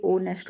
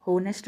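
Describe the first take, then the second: First: ऑनेस्ट starting straight on the o vowel; silent H in ऑनेस्ट. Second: होनेस्ट begun with a sounded h; voiced H in होनेस्ट. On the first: Teacher correcting students, ऑनेस्ट with vowel first, no h. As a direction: drop the h, say ऑनेस्ट as "o-nest". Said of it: "ये ऑनेस्ट होता है". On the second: Teacher rejecting the mistaken form, होनेस्ट with audible h. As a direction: pronounce the h in होनेस्ट, "ho-nest". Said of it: "होनेस्ट नहीं होता है". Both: Shown as a demonstration.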